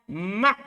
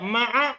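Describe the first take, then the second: First: The middle consonant is followed by no vowel. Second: The middle consonant is followed by an 'a' vowel. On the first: "boleh juga disukun" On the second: "Di patah ainnya"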